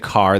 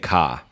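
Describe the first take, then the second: First: The R sound at the end is pronounced. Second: The R sound at the end is dropped. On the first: "they don't say car" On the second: "they don't really pronounce their R's in, in Boston"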